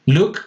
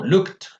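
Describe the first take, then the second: First: Said in the usual way. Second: LOOKED said "lookt", voice higher. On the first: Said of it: "lo mismo". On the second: Shown as a demonstration. Teacher demonstrates the rule, LOOKED ending in T. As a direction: end LOOKED on a released T, no extra syllable. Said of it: "la E D la pronuncio como una T".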